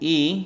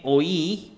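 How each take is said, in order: First: The word is said as a single 'ee' vowel. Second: The word is said with an 'oy' diphthong. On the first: It is the proper pronunciation. The speaker calls it right. "como debe ser" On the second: It is easier for beginners to follow. The speaker calls it wrong. "no utilizo la pronunciación eh, como debe ser"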